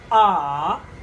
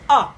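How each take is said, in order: First: The pitch dips down, then comes up. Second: The pitch drops sharply. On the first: "Go down and come up" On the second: "a sharp one, the falling tone"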